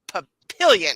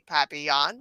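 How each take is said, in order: First: It is pronounced in an Americanized English way. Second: It is pronounced like the French word. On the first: This is how the locals say the town name. "we say Papillion" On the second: This is the original French word. "which is indeed French for butterfly, but we don't say papillon"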